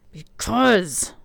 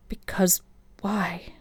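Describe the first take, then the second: First: A rough, growling Because; growled. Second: Softly breathed Because, fading on why; soft whisper. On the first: Hunter warning Alessandra off, growling. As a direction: growl the word Because at her. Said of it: "he growled". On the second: Alessandra pressing Hunter gently, soft whisper. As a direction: ask Because why almost under her breath. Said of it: "came out in a soft whisper". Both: A narrator's reading.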